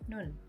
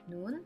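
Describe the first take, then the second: First: The vowel is kept short. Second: The vowel is held slightly long.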